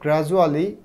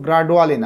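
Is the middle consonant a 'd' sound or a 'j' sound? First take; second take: j; d. First: The middle consonant is a 'j' sound. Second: The middle consonant is a plain 'd' sound. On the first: The speaker calls it right. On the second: The speaker calls it wrong.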